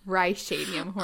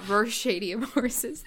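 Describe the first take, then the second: First: The first syllable sounds like 'rye'. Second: The first syllable sounds like 'row'. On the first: The speaker calls it right. "they're Rhyshadium horses" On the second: The speaker calls it wrong. "they're not Rhyshadium horses"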